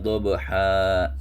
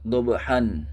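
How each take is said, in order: First: The word ends with a long a vowel. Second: The word ends with an n sound. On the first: The speaker calls it right. "akan tetapi dibaca" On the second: The speaker calls it wrong. "ini tidak dibaca dobhan"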